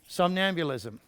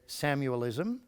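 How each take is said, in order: First: All syllables of the word are pronounced fully. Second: The word is squeezed into fewer, altered syllables. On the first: The speaker calls it right. "which would be somnambulism" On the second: The speaker calls it wrong. "Not, as I heard one trainer say"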